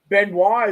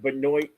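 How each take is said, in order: First: The name is pronounced the French way. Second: The name is pronounced the American way. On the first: "is the French pronunciation" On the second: "is the American pronunciation"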